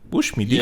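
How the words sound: It is said in a New Zealand accent.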